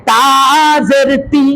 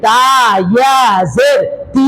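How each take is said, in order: First: "তা জের তি" with the final "তি" kept short; short vowel. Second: "তা ইয়া জের তি" with the final "তি" held long; stretched vowel. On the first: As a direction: end "তা জের তি" on a quick, unstretched "তি". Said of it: "জের, পেশের উচ্চারণ তাড়াতাড়ি করতে হবে". ("তা জের তি"-র শেষের "তি" টান ছাড়া) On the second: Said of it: "টান হবে?". ("তা ইয়া জের তি"-র শেষের "তি" লম্বা টেনে) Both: Shown as a demonstration.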